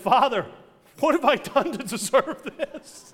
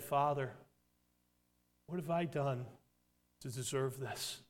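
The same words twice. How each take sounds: First: It is said with indignant dismay. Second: It is said tearfully, with deep emotion.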